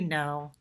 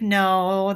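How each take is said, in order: First: It is said calmly in a deep voice. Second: It is said higher with more energy.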